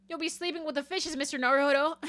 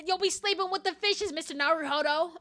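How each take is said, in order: First: Put-on raised, hammy New York accent; bad New York accent. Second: Higher, hammed-up New York accent, laughing at the end; bad New York accent. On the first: Gangster-style threat to Mister Naruhodo, attempted New York accent. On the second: Second go at threatening Mister Naruhodo, exaggerated New York accent. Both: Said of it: "how to do a New York accent".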